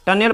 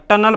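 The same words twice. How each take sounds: First: टनेल as "tun-ell"; wrong reading टनेल, ending "-nel"; mispronunciation demo. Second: टनल as "TUN-ul"; correct pronunciation. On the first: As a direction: say टनेल with a clear "e" before l. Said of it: "तो गलती हो जाएगा". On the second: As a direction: say टनल with schwa before l. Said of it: "टनल पढ़ा जाएगा". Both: Shown as a demonstration.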